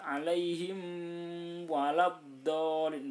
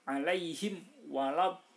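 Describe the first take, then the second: First: The m sound is nasalized and held long. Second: The m sound is clear and short. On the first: The speaker calls it wrong. "tidak boleh dibaca dengung, nggak boleh dibaca lama" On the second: The speaker calls it right. "terang dan sebentar"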